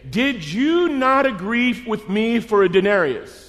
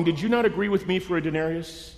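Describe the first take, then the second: First: Slow, high-pitched emphasis through "Did you not agree"; pointed question. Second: Said in the usual way. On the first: Acted. Landowner confronting worker over "agree", slow and pointed. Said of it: "Here comes the hardest question". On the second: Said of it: "Now watch this".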